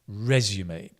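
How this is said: British pronunciation, stressed on the first syllable. "We pronounce it resume, a U, resume. So stress on the re"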